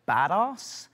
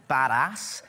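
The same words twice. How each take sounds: First: Badass with a long 'ah', like bad-arse; British pronunciation. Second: Badass with a short American 'a' in ass; American pronunciation. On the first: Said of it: "would naturally pronounce A S S as arse". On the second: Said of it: "That, that guy's badass". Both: Shown as a demonstration.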